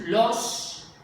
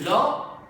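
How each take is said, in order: First: The word ends with a clear s sound. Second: The word ends with a breathy h sound. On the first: "si tú dices los" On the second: "o dices lo, y haces una aspiración al final"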